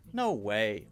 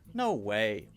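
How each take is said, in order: First: It is said in a disbelieving tone. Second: The same.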